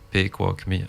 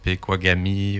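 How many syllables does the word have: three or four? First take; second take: three; four. First: The word is said with three syllables. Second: The word is said with four syllables. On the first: "toi tu le dis en trois. Pequogmi, un, deux, trois" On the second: "ça c'est quatre syllabes"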